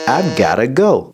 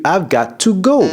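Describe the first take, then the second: First: 'Got to' is reduced to 'gotta'. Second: 'Got to' is said as two full words. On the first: The speaker calls it right. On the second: The speaker calls it wrong.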